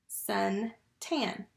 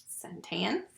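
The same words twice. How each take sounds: First: "Suntan" in two beats, sun, then tan; split into syllables. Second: Said in the usual way. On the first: Shown as a demonstration. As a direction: say "Suntan" slowly with a gap after sun. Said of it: "What's the first syllable?". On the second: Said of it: "What's the word?".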